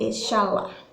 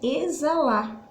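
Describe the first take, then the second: First: The x is not pronounced as a z sound. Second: The x is pronounced as a z sound. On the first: The speaker calls it wrong. "Senão seria exalar" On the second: The speaker calls it right. "E sim exalar"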